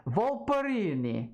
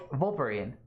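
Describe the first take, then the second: First: Volperini, higher and stretched, ending in a long ee; self-mocking singsong. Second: Volperine rhymed with Wolverine, silent E; corrected name. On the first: Mocking her own greeting to the fox, a high singsong Volperini. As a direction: repeat Volperini with a funny lilt, ending in a long ee. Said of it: "I'm like". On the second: Shown as a demonstration. Accepting chat's correction, a plain Volperine with the E silent. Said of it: "The E is silent, like Wolverine".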